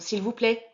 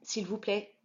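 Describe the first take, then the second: First: It is said somewhat louder. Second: It is said softly.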